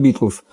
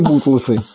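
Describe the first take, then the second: First: The first vowel sounds like 'i'. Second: The first vowel sounds like 'u'. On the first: This is the name that was actually meant. The speaker calls it right. "Оказалось, Битлз" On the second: Someone who could not say the name said it this way. The speaker calls it wrong. "он Битлз не выговаривал, он говорил «хиппи и Бутлсы»"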